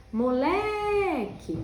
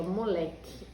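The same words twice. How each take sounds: First: "Moleque" called out with a long, high, louder "le"; stretched stressed syllable. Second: Said in the usual way. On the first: Shown as a demonstration. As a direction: hold the middle of "Moleque": "moleeeque". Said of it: "Olha como o lé ficou comprido". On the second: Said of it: "Essa aqui".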